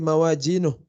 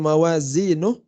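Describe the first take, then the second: First: The middle consonant is a j sound. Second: The middle consonant is a z sound. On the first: The speaker calls it wrong. "biasanya jadi mawajinuh" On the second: The speaker calls it right. "harusnya mawazinuh"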